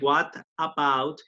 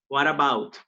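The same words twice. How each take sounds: First: The t is pronounced as a clear t. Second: The t is pronounced like a quick r. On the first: The speaker calls it wrong. "instead of say" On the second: The speaker calls it right. "como si fuera casi que una T esta R"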